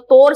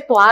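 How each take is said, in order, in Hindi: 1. इस शब्द में सामान्य 'o' स्वर है। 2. इस शब्द में 'wa' ग्लाइड स्वर है। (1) "जो हम ओ है उसका उच्चारण वा करने लगते हैं" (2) "तोर से त्वार हो जाता है"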